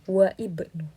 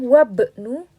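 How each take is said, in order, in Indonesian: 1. Ada vokal i yang terdengar di antara wa dan bnu. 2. Tidak ada vokal yang terdengar di antara wa dan bnu. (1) "bukan waibnu" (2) "kita membacanya wabnu"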